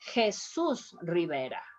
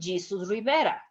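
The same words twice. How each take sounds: First: Jesus starts with a breathy H sound. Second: Jesus starts with an English J sound. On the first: The speaker calls it right. "You have to pronounce" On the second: The speaker calls it wrong. "You are not going to tell him"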